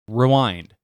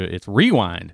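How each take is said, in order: First: The stress is on the second syllable. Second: The stress is on the first syllable. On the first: "Emphasis on the second syllable" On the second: "down here in Georgia"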